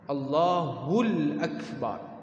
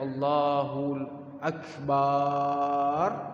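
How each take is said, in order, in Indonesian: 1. Vokal terakhir dalam Akbar itu pendek. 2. Vokal terakhir dalam Akbar dipanjangkan. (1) "Kalau ditambah alif lam pada Allahu Akbar" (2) "ditambah alif pada huruf ba"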